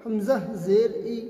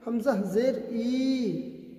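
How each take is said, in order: First: The final vowel is said quick and short. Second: The final vowel is stretched out long. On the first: The speaker calls it right. "हरकत को जल्दी पढ़ें, थोड़ा भी ना खींचें" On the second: The speaker calls it wrong. "इस तरह पढ़ते हैं हमज़ा ज़ेर ई खींच करके, तो ये गलत हो जाएगा"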